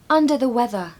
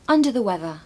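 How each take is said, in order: First: Louder, higher teacher model of "under the weather"; emphatic model. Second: Said in the usual way. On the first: Shown as a demonstration. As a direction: project it clearly for the class. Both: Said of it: "Number four".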